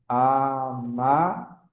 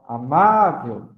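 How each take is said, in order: First: "amável" slowly split as a-má-vel; syllable by syllable. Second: "amável" with MÁ long and louder; stress on MÁ. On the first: Teacher separating syllables for class, "amável" drawn out piece by piece. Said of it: "faço a separação silábica". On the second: Teacher showing the tonic syllable, loud long MÁ in "amável". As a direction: punch and stretch the middle syllable of "amável". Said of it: "o má é a sílaba tônica". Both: Shown as a demonstration.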